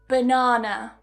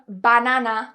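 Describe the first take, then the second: First: The first and last vowels are weak schwas. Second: The first and last vowels are full. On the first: The speaker calls it right. "The first and the final syllables are with a schwa" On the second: The speaker calls it wrong. "I'm not saying banana, which a lot of Spanish speakers would do"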